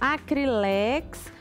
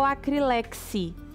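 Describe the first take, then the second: First: The word ends on the consonant sound x. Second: The word ends with an added final i vowel. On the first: "porque eu falo Acrilex" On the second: "Ele fala que o certo é Acrilexi"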